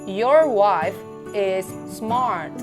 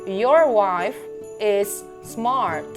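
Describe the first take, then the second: No difference in how they are said.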